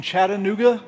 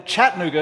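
First: "Chattanooga" with all four syllables; outsider's pronunciation. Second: "Chattanooga" squeezed to three syllables; Tennessee pronunciation. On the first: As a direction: sound out the middle syllable in "Chattanooga". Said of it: "Some of you might say". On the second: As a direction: drop the middle vowel in "Chattanooga". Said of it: "is how you say it if you're from Tennessee". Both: Shown as a demonstration.

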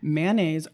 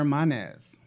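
First: Mayonnaise starting like "man"; mayonnaise in two syllables, MAN-aze. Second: Mayonnaise starting like "mon"; mayonnaise in two syllables, MAH-nez; mayonnaise as MAH-naze. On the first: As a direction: say mayonnaise with a short A, MAN-naze. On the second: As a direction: say mayonnaise with a broad AH. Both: Shown as a demonstration. Offers two pronunciations to choose.

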